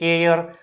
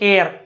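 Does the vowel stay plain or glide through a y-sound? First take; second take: glide; plain. First: The vowel glides through a y-sound before r. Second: The vowel is a plain short e sound. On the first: The speaker calls it right. "પરંતુ સાચો ઉચ્ચાર આવો થાય છે" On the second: The speaker calls it wrong. "આપણે બોલે છે શું?"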